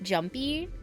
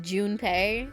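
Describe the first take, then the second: First: The name sounds like the English word jumpy. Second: The name is said with Japanese-style syllables Jun-pei. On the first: The speaker calls it wrong. "more correct than, like, Jumpy" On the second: The speaker calls it right. "because it's Junpei"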